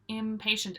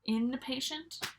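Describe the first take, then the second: First: The word begins with an 'im' sound. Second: The word begins with an 'in' sound. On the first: Someone cannot wait for anything. The speaker calls it right. "impatient is the correct way to say the opposite of patient" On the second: Someone is staying in a hospital. The speaker calls it wrong. "people say in. They say inpatient. That's not correct"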